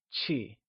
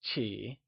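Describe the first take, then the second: First: "qi" low, soft and unstressed; neutral tone. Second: "Qi" soft and low, dipping then rising; falling-rising tone. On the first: Teacher breaking down polite in Mandarin, "qi" in a neutral tone. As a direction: say "qi" lightly, without a tonal contour. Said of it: "with the neutral tone". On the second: Teacher showing learners the word, "Qi" in a falling-rising tone. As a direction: dip the pitch on "Qi", then lift it. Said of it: "using the falling, rising tone". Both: Shown as a demonstration.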